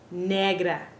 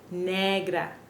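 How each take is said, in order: Both takes have the same delivery.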